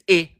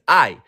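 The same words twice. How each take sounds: First: The vowel is short, as in 'pin'. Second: The vowel is long, like the word 'eye'. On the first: "like nin is I" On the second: "but nine is I"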